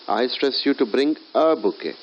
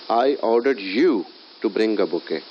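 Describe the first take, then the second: First: The stress is on "a". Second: The stress is on "you".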